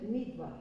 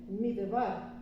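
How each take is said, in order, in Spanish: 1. Ninguna vocal sigue a la primera sílaba. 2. Un sonido e breve sigue a la primera sílaba. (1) "se dice midbar" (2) "no se dice midbar"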